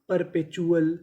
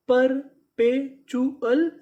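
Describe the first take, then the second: First: Said in the usual way. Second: perpetual stretched slowly, rising at the end; very slow syllable by syllable. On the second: Shown as a demonstration. Teacher to students, sounding out the word slowly. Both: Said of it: "तो पूरी meaning".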